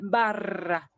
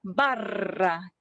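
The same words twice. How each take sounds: The two takes are said the same way.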